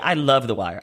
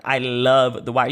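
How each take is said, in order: First: Said in the usual way. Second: "love" drawn out slowly and punched; stress on love. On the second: Real, not acted. Superfan declaring devotion to The Wire, stress on "love". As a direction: stretch the word "love" for emphasis.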